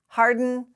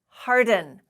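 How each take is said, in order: First: The D runs straight into N without a vowel. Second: A short vowel is heard between D and N. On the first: The speaker calls it right. "the D and the N are, are pronounced together. There's no vowel in between" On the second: The speaker calls it wrong. "we do not say"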